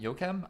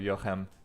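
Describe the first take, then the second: First: The name is said the English or French way. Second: The name is said the Hebrew way. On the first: The speaker calls it wrong. "I am really bad at your name" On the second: The speaker calls it right. "Pretend it's Hebrew"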